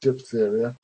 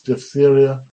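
First: The ph is said as a p sound. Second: The ph is said as an f sound. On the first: The speaker calls it wrong. "don't say diphtheria" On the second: The speaker calls it right. "It's diphtheria"

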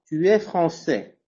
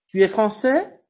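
First: The voice stays level and falls at the end. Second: The voice rises at the end. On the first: The person is stated to be French. "me entendieron que es una entonación normal. Tú va droit" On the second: It asks whether the person is French. "si je monte l'intonation, si elle monte, je suis en train de poser une question"

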